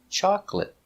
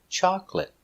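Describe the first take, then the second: Both takes have the same delivery.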